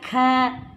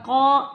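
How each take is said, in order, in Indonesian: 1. K ringan dengan vokal a yang jelas. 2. K berat dengan vokal seperti o. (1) "ka bukan ko" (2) "bukan ko"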